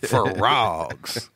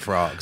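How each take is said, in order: First: The word is said with strong, forceful emphasis. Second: The word is said casually, without emphasis.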